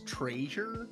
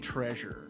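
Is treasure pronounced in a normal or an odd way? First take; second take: odd; normal. First: Treasure is pronounced in a quirky, unusual way. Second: Treasure is pronounced in an ordinary way. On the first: This mimics a character's peculiar way of speaking. "Frank Welker has a weird way of speaking, he always says treasure" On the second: This is the usual pronunciation. "He doesn't say treasure"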